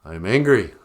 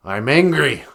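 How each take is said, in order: First: I'm angry forced through clenched teeth; I'm angry spat through gritted teeth. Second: Said in the usual way. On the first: Shown as a demonstration. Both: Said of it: "say through clenched teeth".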